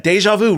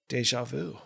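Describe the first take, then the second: First: High, lifted emphasis on the words; amazed retelling. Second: Soft, quiet aside after a pause; imitated punched man. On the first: Real, not acted. Storyteller stressing what his friend said, amazed and animated. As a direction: repeat it pitched up in disbelief. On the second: Friend just punched in the jaw, imitated very softly. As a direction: drop it quietly, far softer than the telling. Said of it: "he literally goes".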